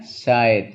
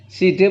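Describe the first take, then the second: First: "side" with an eye vowel, one syllable; correct English reading. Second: "Side" sounded out as see-duh; read as spelled. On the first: Teacher giving the class the reading, "side" as syde. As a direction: say "side" as syde, silent final e. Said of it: "bacanya side". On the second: Teacher showing the class the spelling, "Side" as see-duh. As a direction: say "Side" as written, see-duh, final e voiced. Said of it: "Side bacanya side". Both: Shown as a demonstration.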